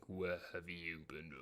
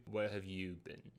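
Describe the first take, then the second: First: Deep, slow, much softer menacing voice; horror movie dad. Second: Low, quiet stern father; a hint of a stern dad. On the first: Retold or imitated. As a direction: growl it like a horror villain. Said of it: "like a horror movie". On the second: Dad catches teen coming home.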